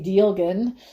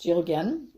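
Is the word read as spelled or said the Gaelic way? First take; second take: as spelled; Gaelic way. First: The word is read out as it is spelled. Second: The word is said with a Gaelic pronunciation. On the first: This is how the name appears on the website. The speaker calls it wrong. "the first letter is D, so it's you'll see Dielgen in the website" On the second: This is how the name is actually pronounced. The speaker calls it right. "it's actually pronounced Dielgen or something like that"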